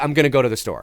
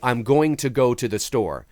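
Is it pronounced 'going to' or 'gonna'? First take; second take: gonna; going to. First: It uses the reduced form 'gonna'. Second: It uses the full form 'going to'. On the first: The speaker calls it right. "we say ... Gonna, G O N N A" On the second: The speaker calls it wrong. "very rarely do we say"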